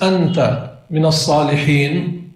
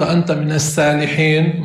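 First: الصالحين with a heavy emphatic ص, the vowel after it dark and backed; emphatic sad. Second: السالحين with a thin plain س and a light front vowel; light sin. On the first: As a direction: say الصالحين with a full, thick ص, not a thin س. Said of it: "وفي فرق بين السين والصاد". (الصالحين بصاد مفخمة واضحة) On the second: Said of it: "أما إذا قلت". (السالحين بسين مرققة خفيفة) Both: Shown as a demonstration.

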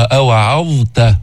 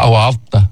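First: Slow أوعظت with the ظ given full time before ت; أوعظت ببيان الظاء; clear dha. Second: أوعظت hurried, ظ nearly swallowed into ت; أوعظت بسرعة وبدون بيان; rushed wrong form. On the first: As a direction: take your time on the ظ of أوعظت. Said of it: "الضاء بدها وقت لتلفظها". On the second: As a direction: say أوعظت fast and careless. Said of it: "إذا أسرعت وما انتبهت". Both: Shown as a demonstration.

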